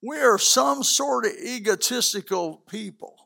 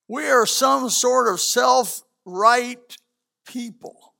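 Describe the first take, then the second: First: Said in the usual way. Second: Slow, deliberate, weighted words; slow, pointed preacher emphasis. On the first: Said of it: "repeated phrase, first take". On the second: Shown as a demonstration. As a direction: drag it out to land the point. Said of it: "repeated phrase, slowed take".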